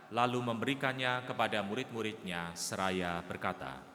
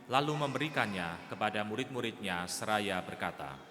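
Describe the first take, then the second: Both takes have the same delivery.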